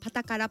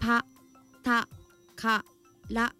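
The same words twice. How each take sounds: First: The syllables are said quickly together. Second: Each syllable is said slowly and separately.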